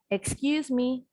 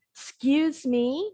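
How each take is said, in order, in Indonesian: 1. Vokal pertama diucapkan penuh dan jelas. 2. Vokal pertama lemah dan tidak jelas. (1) "Tadi kan jelas" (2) "nah bunyi E-nya nggak jelas"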